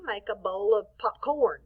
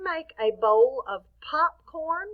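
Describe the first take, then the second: First: POPCORN oddly accented on CORN; weight shifted to the end of POPCORN; stress on second syllable. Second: POPCORN with a strong POP, rising question; stress on first syllable. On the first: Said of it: "So do you make a bowl of popcorn". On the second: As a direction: say POPCORN as POP-corn, louder. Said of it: "the pop is a little stronger". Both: Shown as a demonstration.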